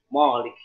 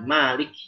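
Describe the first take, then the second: First: The first syllable sounds heavy and dark. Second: The first syllable sounds light and thin. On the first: The speaker calls it wrong. "jadi mimnya tebal" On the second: The speaker calls it right. "Tapi seharusnya malik"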